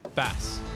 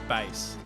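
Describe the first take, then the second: First: It is not pronounced like the instrument name. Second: It is pronounced like the instrument name. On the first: It names the strait in Australia. The speaker calls it right. "It's bass, as in the Strait in Australia" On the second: It names the musical instrument. The speaker calls it wrong. "not bass, like strumming the bass"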